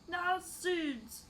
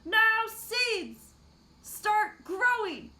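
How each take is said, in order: First: It is said at a normal volume. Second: It is said loudly.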